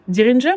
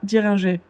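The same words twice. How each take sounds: First: The name is said with an English accent. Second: The name is said with a French accent. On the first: "en anglais" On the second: "en français"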